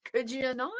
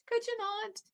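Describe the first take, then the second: First: Said in the usual way. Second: Much higher, softer mocking repeat; mock high plea. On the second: The attorneys begging her to stop, in a mock high plea. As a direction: jump way up and plead in mockery.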